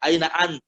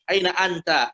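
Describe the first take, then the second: First: The final vowel is dropped. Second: The final vowel is pronounced. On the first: This is the everyday spoken form. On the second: This is the original full form.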